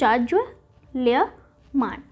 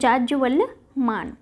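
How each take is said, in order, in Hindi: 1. शब्द तीन हिस्सों में बोला जाता है। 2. शब्द बिना रुके, सहजता से बोला जाता है।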